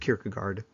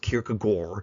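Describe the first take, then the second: First: The name has a plain English pronunciation. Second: The name has a foreign, non-English pronunciation. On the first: "I'm going to just stick with Kierkegaard" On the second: "the correct pronunciation is Kierkegaard, but that just sounds so weird in English"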